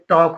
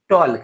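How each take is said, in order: First: The L sound is silent before the K. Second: The L sound is pronounced before the K. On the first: The speaker calls it right. "इसका जो है टॉक होता है उच्चारण" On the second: The speaker calls it wrong. "अभी हम जैसे लिखा वैसे पढ़ रहे हैं"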